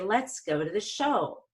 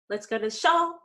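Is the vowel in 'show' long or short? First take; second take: long; short. First: The vowel in show is stretched, rising then falling. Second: The vowel in show is clipped short and quick. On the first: The speaker calls it right. "I want to say" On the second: The speaker calls it wrong. "where I make the vowel really quick"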